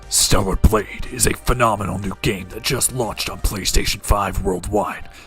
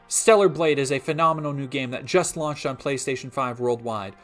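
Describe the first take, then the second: First: It is said in a serious movie-trailer voice. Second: It is said in his normal speaking voice.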